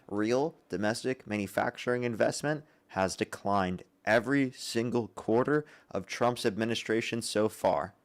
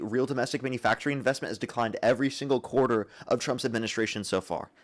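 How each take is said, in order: First: It is said slowly and deliberately. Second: It is said at normal speed.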